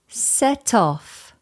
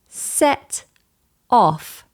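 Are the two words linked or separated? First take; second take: linked; separated. First: The two words are joined smoothly without a break. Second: The two words are said separately with a break. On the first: "together becomes" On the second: "Instead of stopping and breaking the words apart"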